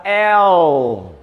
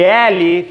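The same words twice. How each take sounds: First: L said as English "el", slow, no final vowel; English letter name. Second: L said as "éle" with final vowel; Portuguese letter name. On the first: Teacher gives the English "el" slowly to students. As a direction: cut the last E: "el". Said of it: "fica L". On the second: Teacher shows the Portuguese "éle" to avoid. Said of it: "Em vez de L". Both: Shown as a demonstration.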